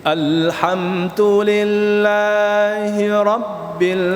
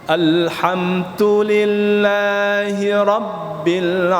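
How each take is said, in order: No difference in how they are said.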